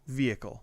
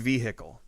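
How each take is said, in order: First: The h in the middle is soft or silent. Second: The h in the middle is strongly pronounced. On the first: "I say it like that" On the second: "She really punches the H"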